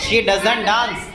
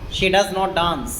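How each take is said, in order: First: 'Does not' is contracted into one word. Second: 'Does not' is said as two full words. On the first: "आप डज नॉट को डजंट भी कह सकते हैं" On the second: "जैसे लिख रहा है ना शी डज नॉट डांस"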